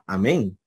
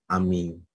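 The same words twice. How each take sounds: First: It uses the Erasmian Greek pronunciation. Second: It uses the historical Greek pronunciation. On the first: "En la pronunciación erásmica sería amén" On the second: "pero en la histórica sería amén"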